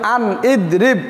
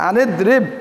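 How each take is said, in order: First: The two words are said separately, unlinked. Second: The words run together, linked through the n. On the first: This is the underlying form before joining. "এখানে ছিল" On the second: The connecting hamza merges with the preceding letter. "নুনের সাথে মিলে গেছে"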